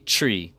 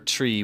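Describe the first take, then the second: First: The word begins with a ch sound. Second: The word begins with a plain t sound. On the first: This is the Hawaii Creole form. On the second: This is the standard English form.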